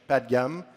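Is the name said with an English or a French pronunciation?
French. The name is said with a French pronunciation.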